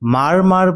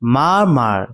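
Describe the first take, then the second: First: Both syllables end with an audible r sound. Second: The r sounds are left unpronounced. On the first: The speaker calls it wrong. "এটাকে কিন্তু মার মার বলে উচ্চারণ করবে না" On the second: The speaker calls it right. "এটা উচ্চারণ হবে মা মার"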